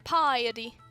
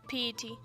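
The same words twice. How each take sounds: First: The word is said with three syllables. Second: The word is said with two syllables. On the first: The speaker calls it right. "Oh, it's piety. Of course, I should have known that" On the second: The speaker calls it wrong. "not piety"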